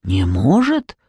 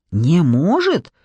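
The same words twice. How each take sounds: First: Very low troll voice rising at the end; low, puzzled troll question; troll's questioning echo. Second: Drawn-out incredulous question on "может". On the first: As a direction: repeat it as a troll, deep then lifting on "может". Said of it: "повторил тролль слева". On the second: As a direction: ask "может" slowly, pitch swooping up then falling. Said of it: "переспросил Джекоби". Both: A narrator's reading.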